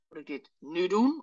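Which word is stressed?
nu. The stress is on "nu".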